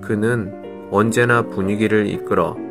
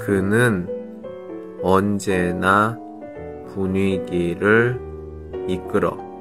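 First: It is said quickly. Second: It is said slowly.

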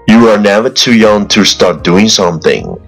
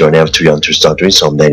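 First: It is spoken at an ordinary, unhurried pace. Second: It is spoken very fast, in one breath.

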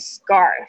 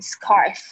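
First: The c sounds like an unpuffed g. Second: The c sounds like a puffed k. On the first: The speaker calls it right. "c 的声音这边发起来很像g 的声音" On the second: The speaker calls it wrong. "不会念成scarf"

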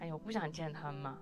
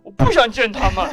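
First: It is said in a whiny, pleading way. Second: It is said in an angry, sharp way.

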